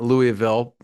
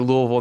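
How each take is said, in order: First: It is said the way outsiders say it. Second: It is said the way locals say it. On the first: The speaker does not know the local name. The speaker calls it wrong. "not Louisville" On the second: The speaker lived there and knows the name. The speaker calls it right. "I say Louisville ... I know that's the proper way to say it"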